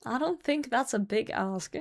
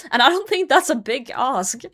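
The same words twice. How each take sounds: First: Softer, muttered to herself; quiet repeat. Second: Said in the usual way. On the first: Real, not acted. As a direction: repeat it under your breath.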